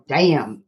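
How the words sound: It sounds dismayed and disappointed. Things are going badly. "When things are really bad, you can go damn"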